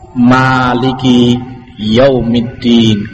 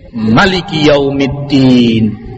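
First: The first vowel of maliki is drawn out long. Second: The first vowel of maliki is kept short. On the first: God is the owner of the Day of Judgment. "Boleh panjang, dua harokat" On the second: God is the ruler of the Day of Judgment. "Boleh pula dibaca qasr pendek"

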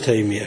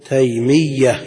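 First: The y sound is single and short. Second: The y sound is doubled and held longer. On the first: The speaker calls it wrong. "ما نقول تيمية كما يقول بعض الناس" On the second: The speaker calls it right. "نقول شيخ الإسلام ابن تيمية للتشديد"

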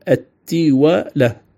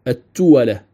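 First: The first vowel is i, as in tiwala. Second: The first vowel is u, as in tuwala. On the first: "تلفظ بكسر التاء وفتح الواو" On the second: "وتلفظ أيضا بضم التاء وفتح الواو"

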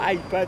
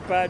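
First: The first vowel sounds like English 'eye'. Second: The first vowel sounds like French 'i'. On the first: The speaker calls it wrong. "c'est pas iPad" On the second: The speaker calls it right. "moi en français c'est iPad, c'est un i"

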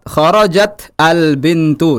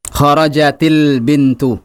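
First: The final t of kharajat has no vowel. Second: The final t of kharajat takes an i vowel. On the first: "Di sini ada dua huruf mati ketemu" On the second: "kita hidupkan dengan tanda harokat kasrah"

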